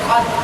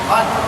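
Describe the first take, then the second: The two takes are said the same way.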